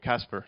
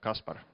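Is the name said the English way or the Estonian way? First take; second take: English; Estonian. First: The name is said with an English pronunciation. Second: The name is said with an Estonian pronunciation. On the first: "most people in the UK tend to call me Kaspar" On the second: "not Kaspar, as it's said in Estonia"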